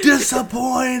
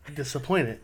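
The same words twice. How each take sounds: First: It is yelled loudly. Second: It is said calmly, at normal volume.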